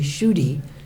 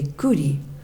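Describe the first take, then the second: First: The name begins with a plain sh sound. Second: The name begins with a plain k sound. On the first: This is how English speakers say it. "in English they say Shuti" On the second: This is how Bengali speakers say it. "in Bengali they say Kuti"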